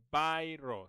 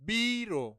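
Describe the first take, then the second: First: "biro" said as "bye-ro"; English "buy" at the start of "biro"; mispronounced biro demo. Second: "biro" said as "bee-ro", higher and louder; long "bee" starting "biro"; correct biro demo. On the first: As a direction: show the mistaken "bye-ro" for "biro". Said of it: "So don't say biro". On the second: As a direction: model "biro" firmly as "bee-ro". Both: Shown as a demonstration.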